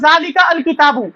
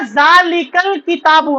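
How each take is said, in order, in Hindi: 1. 'अल' को अपने अलग स्वर के साथ अलग से बोला जाता है। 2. 'अल' पिछले शब्द के साथ सहजता से जुड़कर बोला जाता है। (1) "मैं ऐसे नहीं पढ़ूंगा" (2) "तो मैं अब इसको पढ़ूंगा"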